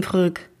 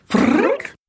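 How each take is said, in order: First: Frrrk said like a plain human word, Fryk; human attempt. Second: Frrrk as a rolled, buzzing alien sound rising high; alien name sound. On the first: Shown as a demonstration. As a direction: say Frrrk simply as Fryk, no buzz. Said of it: "Was soll das heißen". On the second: Acted. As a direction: say Frrrk as a whirring rolled buzz with a steep rise. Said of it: "machte er noch einmal".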